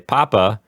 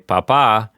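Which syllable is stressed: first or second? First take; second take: first; second. First: The stress is on the first syllable. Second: The stress is on the second syllable. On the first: It means potato. "it means potato" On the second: It means dad. "then it means dad"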